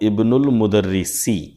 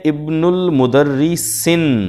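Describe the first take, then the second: First: The last word ends on a vowel without n. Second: The last word ends with an added n sound. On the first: The speaker calls it right. "सीन के नीचे एक ज़ेर, दो ज़ेर नहीं बल्कि एक ज़ेर" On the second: The speaker calls it wrong. "मुदर्रिसिन में जो गलती है वो ये कि अल और तनवीन एक साथ नहीं आ सकती"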